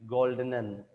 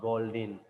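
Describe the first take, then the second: First: "Goldenen" with three syllables, ending in -en-en; corrected German word. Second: "Goldin" in two syllables, ending in -in; mistaken word. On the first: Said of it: "the fourth word should read". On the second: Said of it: "not Goldin". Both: Acted.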